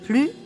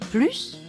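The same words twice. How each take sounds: First: The final s sound is silent. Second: The final s sound is clearly pronounced. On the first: "on ne prononce pas le « s » final" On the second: "on prononce le « s » final"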